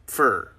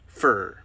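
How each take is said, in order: First: It is reduced to 'fur'. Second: The same.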